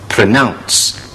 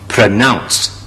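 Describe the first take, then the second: Both takes have the same delivery.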